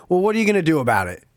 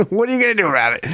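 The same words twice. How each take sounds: First: Breezy provocation, tossed off fast; egging on the old man, daring him to act; taunting challenge. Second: Taunting dare, pitched higher; mocking dare. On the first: Retold or imitated. Cocky challenge thrown quickly at the angry old man. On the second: Retelling the dare to the old man, higher and mocking. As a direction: push his buttons with a smug grin. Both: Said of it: "the classic line to get any man's emotions".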